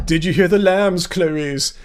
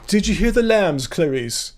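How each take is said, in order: First: A light Hannibal Lecter purr, lowering on the name; creepy Hopkins-style Lecter line, lightly done; mild Lecter impression; Anthony Hopkins accent. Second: A hint of Anthony Hopkins as Lecter; Hannibal Lecter accent. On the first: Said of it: "Did you like my Anthony Hopkins an-, accent?". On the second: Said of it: "The Hannibal Lecter accent?".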